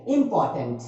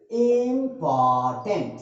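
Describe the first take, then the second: First: Said in the usual way. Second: important slowly split as इं-पॉ-टेंट; syllable by syllable. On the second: Shown as a demonstration. Teacher splits the word for students, important in slow syllables. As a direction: break important into three drawn-out beats. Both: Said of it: "अगर इसको तोड़ें".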